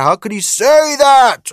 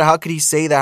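First: Much higher, slow, hammed-up pearl-clutching "How could he say that?"; mock outrage, much higher. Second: Lightly voiced pearl-clutching, close to own voice; a hint of the outraged crowd; mild mock outrage. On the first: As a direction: stretch out "How could he say that?" way up high like a scandalised critic. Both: Mocking outraged people.

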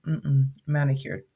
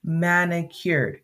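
First: Said in the usual way. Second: "manicured" drawn out slowly and firmly; stressed manicured. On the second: Shown as a demonstration. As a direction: lean on "manicured" slowly, falling at the end. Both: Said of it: "Let me be very specific".

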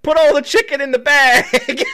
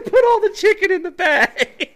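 First: Laughing through a mock robber's order; half-laughing gruff demand; giggling imitation of the gunman. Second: Crying with laughter through the robber's line; wheezing laugh while quoting; barely gets the words out laughing. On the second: Retold or imitated. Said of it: "he said".

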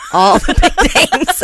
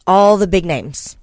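First: Louder, laughing through the words. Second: Said in the usual way. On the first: Real, not acted. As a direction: crack up halfway through.

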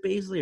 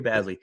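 First: First "Bazley" said as BAYZ-lee; long A as in days in "Bazley"; long A pronunciation. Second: Second "Bazley" said as BAZ-lee; short A as in jazz in "Bazley"; short A pronunciation. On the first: Host asking co-host which name is right, "Bazley" as BAYZ-lee. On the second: Host offering co-host the alternative, "Bazley" as BAZ-lee. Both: Real, not acted. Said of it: "is it Bazley or Bazley".

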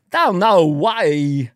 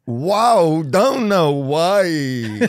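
First: Very slow Walken don't know why; Walken puzzled. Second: Very slow laughing Walken; Walken copy. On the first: Retold or imitated. Comic teaching Walken's baffled line, very slow. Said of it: "Walken bit continued". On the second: Shown as a demonstration. Host copying Walken's line, very slow and laughing. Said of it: "copying Walken".

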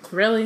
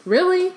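First: Said in the usual way. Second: High, disbelieving "Really?"; sharp rise of disbelief; incredulous. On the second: Real, not acted.

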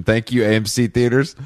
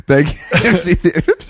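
First: Said in the usual way. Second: Laughing. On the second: Acted. Repeats tagline, laughing.

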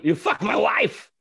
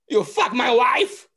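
First: Slow, louder accusing shout; hammed-up accusation; mock accusation. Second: High, slow, loud accusing voice; hammed-up jealous husband; mock accusation. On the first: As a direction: bark it like a jealous husband. Punchline repeated. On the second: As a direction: demand it of your own pants. Walken's joke punchline acted.

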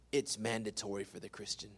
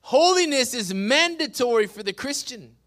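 First: Low, hushed and grave; quiet emphasis. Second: Ringing, emphatic declaration; forceful preaching. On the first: Pastor stating the rule to Christians, quietly. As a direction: drop right down for weight. Same statement said quietly, then loudly. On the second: Pastor repeating the rule to Christians, proclaiming. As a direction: proclaim it out to the room. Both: Real, not acted.

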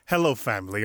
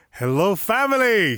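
First: Said in the usual way. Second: High, loud burst of greeting; excited greeting. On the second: Real, not acted. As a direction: greet long-missed listeners at full excitement. Excited return to the podcast.

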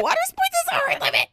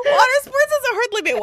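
First: Even higher, breathless laughing take; laughing repeat. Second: High, laughing delivery. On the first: Repeating the joke to her friend, squeaky laughing voice. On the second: Joking about her limits to friends, high laughing squeal. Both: Real, not acted.

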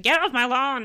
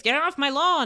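First: Put-on louder cranky yell at the kids; mock grumpy shout. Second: Put-on a louder grumpy old lady yelling at kids; hammed-up cranky neighbour; mock grumpy shout. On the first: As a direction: play the grumpy ghost shooing kids off. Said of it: "shouting at kids". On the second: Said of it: "is going out and shouting".

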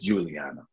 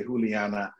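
First: Juliana with a hard English J; English pronunciation. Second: Juliana opening on a soft H sound; Spanish pronunciation. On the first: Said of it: "translates in English to just Juliana". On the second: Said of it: "her side of the family". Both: Shown as a demonstration.

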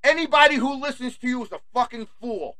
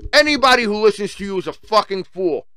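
First: Higher, softer sneer at the listeners; scornful jab said up high; higher sneering take. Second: Firm, even declaration; firm plain restatement. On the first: Ranting vlogger sneers at WHO's followers, higher and softer. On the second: Vlogger hammers the verdict on WHO's listeners, firm and level. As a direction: drive the point home flatly. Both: Shown as a demonstration. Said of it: "repeats line differently".

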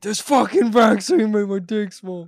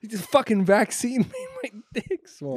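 First: Hammed-up old-timer grumble, higher and louder; teasing a friend by voicing him as a grumpy old man; mock old man. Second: Laughing through the joke, higher and a bit louder; cracking up while saying it; giggling out a silly complaint to a friend. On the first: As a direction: play a cranky seventy-eight-year-old complaining. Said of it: "You're like, you're like seventy-eight". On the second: Real, not acted. Laughing at his own joke.

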